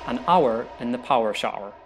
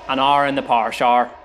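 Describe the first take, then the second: First: It is said in a standard English accent. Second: It is said in a Northern Irish accent.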